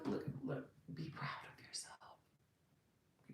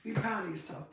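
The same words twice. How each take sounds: First: Soft unvoiced whisper. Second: Said in the usual way. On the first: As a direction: lean in and whisper it like a secret. Intimate repeated encouragement to viewers.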